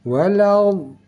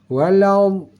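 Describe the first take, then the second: The two takes are said the same way.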